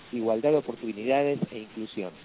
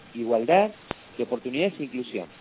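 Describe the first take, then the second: The two takes are said the same way.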